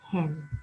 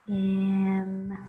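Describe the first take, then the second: First: The word is said quickly as one smooth unit. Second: The word is said slowly, one sound at a time. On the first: "Read it fast" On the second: "Sound it out"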